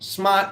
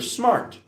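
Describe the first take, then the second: First: It is said with an East Coast accent. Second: It is said with a plain, neutral accent.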